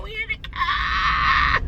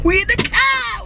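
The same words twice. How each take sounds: First: High slow sing-song call; drawn-out shout. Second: Excited shout. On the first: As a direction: stretch the shout out slowly. Repeating the announcement. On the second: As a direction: shout it out joyfully. Announcing from inside. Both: Real, not acted.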